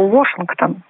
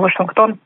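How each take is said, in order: First: The stress is on the first syllable. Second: The stress is on the last syllable. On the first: This is the original pronunciation of the name. "поэтому ударение на первый слог" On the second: This is the pronunciation Russians are used to. "наши соотечественники привыкли к произношению Вашингтон"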